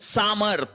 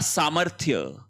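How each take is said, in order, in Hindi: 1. शब्द सादे 'th' ध्वनि पर खत्म होता है। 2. शब्द 'thya' ध्वनि पर खत्म होता है। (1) "सामर्थ नहीं होगा" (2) "शब्द होगा सामर्थ्य"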